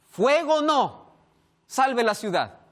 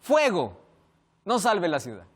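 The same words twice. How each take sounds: First: "Fuego no" said high as one phrase, pause before "salve la ciudad"; group "Fuego no," then "salve la ciudad"; pause after no. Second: "Fuego," stands alone, then "no salve la ciudad"; pause after fuego. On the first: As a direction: comma after "no". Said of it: "El superior respondió". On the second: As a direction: break right after "Fuego,". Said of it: "Pero el soldado escribió". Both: Shown as a demonstration.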